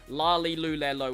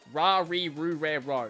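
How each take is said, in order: First: The consonant sounds like an English L. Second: The consonant sounds like an English R. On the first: "or la li lu le lo, which is also something that tends to happen" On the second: "I'd probably pronounce it like ra re ru re ro, which is not at all closely"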